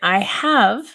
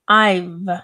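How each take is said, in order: First: Both words are said in full. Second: Only the final sound of have is kept. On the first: "instead of saying I have" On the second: "taking like the last sound"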